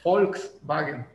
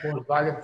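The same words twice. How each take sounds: First: The word begins with an F sound. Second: The word begins with a B sound. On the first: The speaker calls it right. "se pronuncia Volkswagen, como si fuera una F al principio" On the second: The speaker calls it wrong. "no se pronuncia Volkswagen"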